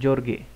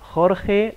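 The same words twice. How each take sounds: First: The first sound is a J sound. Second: The first sound is a breathy H-like sound. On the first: The speaker calls it wrong. "bukan Jorge" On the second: The speaker calls it right. "ini J itu dibaca H. Jota. Makanya Jorge Lorenzo"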